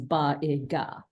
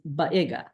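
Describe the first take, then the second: First: The three sounds are said separately with breaks. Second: The sounds are said quickly and run together. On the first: "what you're really going to be reading is ba-i-ga" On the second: "it doesn't matter how quickly you say those sounds, the best you're going to get is"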